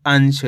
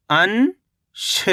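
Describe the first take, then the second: First: Said in the usual way. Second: अंश as long rising "an", pause, "sha"; split syllables. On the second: Shown as a demonstration. Teacher breaking down अंश for learners, split syllables. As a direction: stretch अंश into two separate syllables. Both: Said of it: "तो मिलके बन जाएगा".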